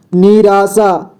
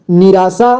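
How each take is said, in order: First: "निराशा" drawn out as ni-raa-shaa; beginner's reading of "निराशा" as ni-raa-shaa; sounded out by syllable. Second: Said in the usual way. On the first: Shown as a demonstration. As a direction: stretch each syllable of "निराशा". Teacher sounds out, then reads whole.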